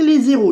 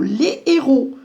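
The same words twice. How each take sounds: First: A z sound links les to héros. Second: No z sound links les to héros. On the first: The speaker calls it wrong. "On ne va pas dire les héros" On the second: The speaker calls it right. "on ne va pas faire la liaison"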